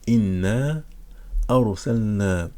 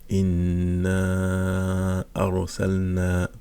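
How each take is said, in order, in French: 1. La voyelle finale de « inna » est tenue brièvement. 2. La voyelle finale de « inna » est tenue quatre temps.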